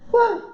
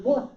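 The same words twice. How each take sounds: First: Sudden high What; high surprised what. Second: Said in the usual way. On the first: Shown as a demonstration.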